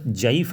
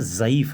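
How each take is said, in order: First: The word begins with a j sound. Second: The word begins with a z sound. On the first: The speaker calls it wrong. "नहीं है" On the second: The speaker calls it right. "है"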